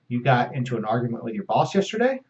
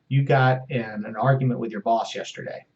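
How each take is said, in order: First: The voice rises at the end. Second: The voice falls at the end. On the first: It is a question. "the same thing with an inflection at the end and turn it into a question" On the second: It is a statement. "That's a reflection of content"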